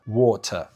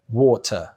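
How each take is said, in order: Both takes have the same delivery.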